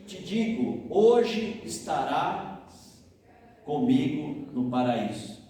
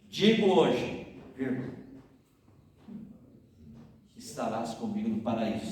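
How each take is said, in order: First: The pause comes before the word hoje. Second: The pause comes after the word hoje.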